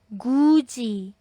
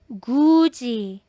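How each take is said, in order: The two takes are said the same way.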